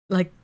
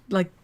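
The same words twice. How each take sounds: The two takes are said the same way.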